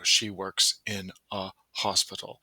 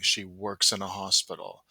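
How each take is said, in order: First: The words are said separately without linking. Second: The words run together with linked sounds. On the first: "instead of" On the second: "I want learners to hear the linking"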